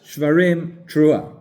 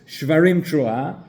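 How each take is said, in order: First: There is a pause between the two words. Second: The two words run together without a pause.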